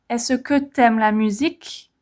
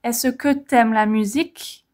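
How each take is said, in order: First: The vowel of tu is dropped and linked. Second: The same.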